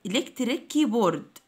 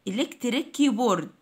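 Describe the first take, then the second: No difference in how they are said.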